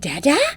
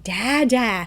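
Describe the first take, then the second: First: The voice rises at the end. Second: The voice falls at the end. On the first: The child is asking whether dad is there. "like a question like, is that dad's car?" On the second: The child is naming the person. "When a kid would label dada or see dada"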